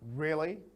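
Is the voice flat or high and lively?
flat. The voice stays flat and level throughout. The listener is not really interested. The speaker calls it wrong. "Not really"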